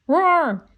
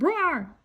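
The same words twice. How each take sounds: First: Loud, high mock roar like a gorilla; a boy's hammed-up beast roar. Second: A lighter mock roar; softer roar. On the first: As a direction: roar to scare off the leopard. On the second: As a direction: roar again, pulled back. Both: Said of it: "he roared".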